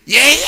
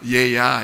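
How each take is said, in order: First: 얘야 barked out loud and high like a scolding; harsh call. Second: Gentle call. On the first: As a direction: call 얘야 sharply, as a rebuke. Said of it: "이, 이건 아니잖아". (얘야를 크고 높게 꾸짖듯이) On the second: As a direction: call 얘야 kindly like a loving father. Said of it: "이렇게 좋게 보이니까". (얘야를 낮고 부드럽게 다정하게) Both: Shown as a demonstration.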